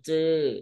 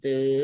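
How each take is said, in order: First: The syllable is said with a falling tone. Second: The syllable is said with a high tone. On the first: "ไม้โท" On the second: "ไม้ตรี"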